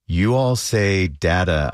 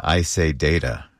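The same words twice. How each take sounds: First: "data" with a short flat a, as in "dad"; other pronunciation of data. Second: "data" with a long a, as in "day"; own pronunciation of data. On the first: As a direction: say "data" as DAT-uh, drawn out slowly. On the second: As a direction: say "data" as DAY-tuh, unhurried. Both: Shown as a demonstration.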